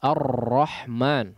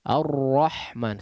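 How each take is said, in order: First: The r is trilled harshly and too much. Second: The r has only a slight, light trill. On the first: The speaker calls it wrong. "Tadi kasar maksudnya ada Ar-Rahman" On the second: The speaker calls it right. "tapi Ar-Rahman sesuai dengan kadar tawassut"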